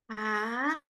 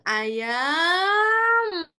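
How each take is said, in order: First: The word is said quietly and softly. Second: The word is said with a louder voice. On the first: "Jadi ucapnya kecil" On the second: "naikkan suaranya pelan-pelan gitu"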